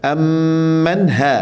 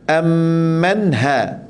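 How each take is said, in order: First: The h is a light, breathy sound. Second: The h is a light, breathy sound.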